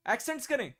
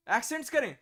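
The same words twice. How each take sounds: The two takes are said the same way.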